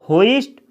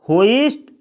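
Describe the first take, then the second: No difference in how they are said.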